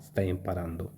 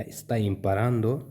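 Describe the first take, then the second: First: Stai imparando, lower and softer, falling; statement tune. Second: Stai imparando, slow with a rising end on imparando; question tune. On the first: Teacher contrasts the telling tone, quiet and falling. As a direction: tell it: Stai imparando, settled and down. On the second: Teacher contrasts the asking tone, rising like a question. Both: Shown as a demonstration. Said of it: "इन दोनों में फ़र्क है बोलने का, tone का".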